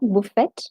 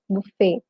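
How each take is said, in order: First: The final T is sounded. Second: The final T is silent. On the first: The speaker calls it wrong. "not buffet" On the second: The speaker calls it right. "The last T is silent. So that's why you say the word as buffet"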